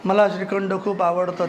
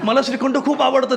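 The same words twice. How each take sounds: First: It is said flatly, without enthusiasm. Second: It is said with delight and enthusiasm. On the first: The speaker calls it wrong. "ते खूप असं नाही" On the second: The speaker calls it right. "ते फार गोड असं भारी असं"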